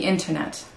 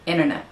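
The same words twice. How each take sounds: First: The middle T sound is clearly pronounced. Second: The middle T sound is dropped entirely. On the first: "if I'm saying it nicely" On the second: "We say internet. So when you have inter, it becomes inner"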